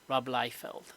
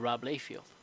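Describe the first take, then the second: First: The first syllable of the surname sounds like 'lie'. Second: The first syllable of the surname sounds like 'lay'. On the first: The speaker calls it right. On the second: The speaker calls it wrong.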